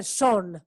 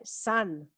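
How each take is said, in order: First: "son" with an o vowel, as the mistake; "son" read as spelt, with a round o; wrong "son". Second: "sun" with a short ah-like vowel; "sun" with an open, unrounded central vowel; correct "sun". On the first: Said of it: "No se dice son". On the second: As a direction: say "sun" as sahn, not sohn. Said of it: "Se dice sun". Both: Shown as a demonstration.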